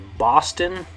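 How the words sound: It is said with English vowel sounds. "In English, we would say"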